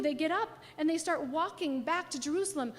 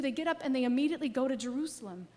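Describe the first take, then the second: First: Said in the usual way. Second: Fast, pressing forward; quick and urgent. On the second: Acted. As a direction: rush it like they can't wait. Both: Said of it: "So what do they do?".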